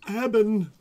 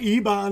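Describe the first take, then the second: First: The second syllable sounds like 'ben'. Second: The second syllable sounds like 'ban'. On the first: The speaker calls it right. "it's Eben" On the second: The speaker calls it wrong. "It's not Eban"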